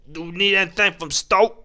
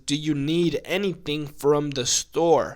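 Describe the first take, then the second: First: The words are mumbled and run together. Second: Each word is enunciated clearly and separately. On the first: "when you're in Texas, you actually say" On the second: "what he's saying in regular English language is"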